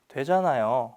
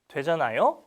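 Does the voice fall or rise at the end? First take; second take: fall; rise. First: The voice falls at the end like a statement. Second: The voice rises at the end like a question. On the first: Reminding the listener that it does work. The speaker calls it right. "You know it's working" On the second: Asking whether the listener knows it is working. The speaker calls it wrong. "It's not this question"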